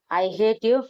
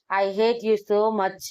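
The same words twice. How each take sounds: First: A light hurt cry, rising at the end; mildly voiced heartbroken outburst; hurt accusation. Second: Very slow, falling and drawn out; slow, sorrowful I hate you so much; slow heartbroken. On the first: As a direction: throw it at him, wounded. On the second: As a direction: let each word sink, defeated. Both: A narrator's reading. Heartbroken girl accuses lover.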